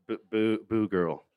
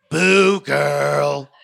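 First: Awkward mumble; reluctant repeat. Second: Mock host shouting a catchphrase, higher and louder; a hint of a fake cheerleader; perky catchphrase. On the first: Retold or imitated. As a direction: say it half-hearted and embarrassed. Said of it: "I'm like". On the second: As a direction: sell the motto like a cheesy host. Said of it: "Can you say".

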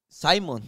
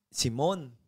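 First: "Simon" said the English way, SY-mon, with an English long i. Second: "Simón" said the Spanish way, see-MOHN, stress on the last syllable; the Culiacán version, "Simón" as see-MOHN. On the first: Telling the interviewer his English name, English SY-mon. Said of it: "Inglés Simon". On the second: Explaining what people in Culiacán call him, Spanish see-MOHN. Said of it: "Culiacán se dice". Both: Shown as a demonstration.

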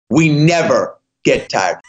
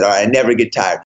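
First: Every word laid down slowly and firmly; slow declaration. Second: Quick mumbled line. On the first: Exhausted runner finally declares to Chad, slow and firm. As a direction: say it so everybody can hear it. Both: Retold or imitated. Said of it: "stop and say it so everybody can hear it".

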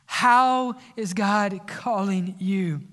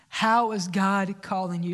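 First: How is God calling you drawn out slowly, louder, falling at the end; a slow, weighty How is God calling you; slow emphatic question. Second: Said in the usual way. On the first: Shown as a demonstration.

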